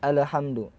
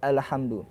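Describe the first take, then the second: Both takes have the same delivery.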